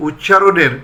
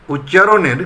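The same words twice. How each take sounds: The two takes are said the same way.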